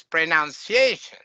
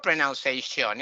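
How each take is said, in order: First: Pronunciation stressed on the a before the ending; weak final syllable in pronunciation; correct example. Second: Pronunciation stressed on the final syllable; end-stressed pronunciation; wrong pronunciation. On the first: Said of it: "It's pronunciation". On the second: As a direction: say pronunciation ending in SHON. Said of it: "it's not pronunciation". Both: Shown as a demonstration.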